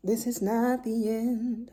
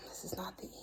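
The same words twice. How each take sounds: First: Slow, drawn-out "not" with weight; slow emphatic correction. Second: Soft unvoiced whisper, stress on "not"; whispered correction. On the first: Mom correcting herself to viewers, slow and deliberate. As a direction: spell out "This is not the end" slowly and firmly. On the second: Mom catching herself closing the video, whispering. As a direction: breathe "This is not the end" as a hushed self-correction. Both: Real, not acted. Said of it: "why am I closing the video?".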